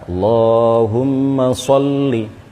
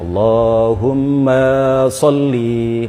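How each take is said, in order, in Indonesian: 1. Vokal 'ma' dibaca pendek. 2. Vokal 'ma' dibaca panjang. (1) "Jadi yang benar" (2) "ma-nya juga dipanjangkan"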